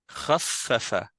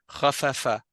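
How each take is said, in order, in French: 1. Le son f est tenu longtemps et doublé. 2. Le son f est court et simple. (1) "la shadda, elle fait doubler le fa" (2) "c'est comme si tu disais khafafa"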